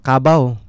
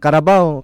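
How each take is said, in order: First: The word is said in a clipped, shorter form. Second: The word is said with all its syllables.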